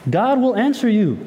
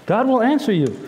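The two takes are said the same way.

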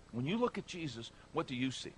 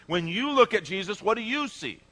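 First: Much softer, reflective question; hushed repeat. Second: Raised, higher preaching question; emphatic challenge. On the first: Preacher asks congregation to reflect personally, hushed. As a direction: let the question sink in quietly. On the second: Preacher asks congregation to examine their view, emphatic. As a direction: put the question forcefully to the room. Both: Real, not acted.

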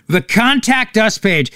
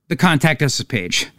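First: "Contact Us" drawn out with derision; mocking emphasis. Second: Said in the usual way. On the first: Host ridiculing the hate-mail method, "Contact Us" stressed slowly. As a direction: dwell slowly on each word of "Contact Us".

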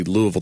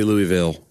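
First: "Louisville" as LOO-uh-vul; local pronunciation. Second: "Louisville" as LOO-ee-vill; outsider pronunciation. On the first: Explaining car commercial training, local pronunciation. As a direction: swallow the middle of "Louisville" into "uh". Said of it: "say Louisville the right way". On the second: Quoting the forbidden way to say it, outsider pronunciation. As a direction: give "Louisville" a clear "ee" in the middle. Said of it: "Don't say Louisville". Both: Shown as a demonstration.

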